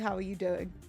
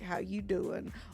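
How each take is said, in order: First: It is a genuine, sincere everyday greeting. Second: It is a flirty Joey from Friends greeting.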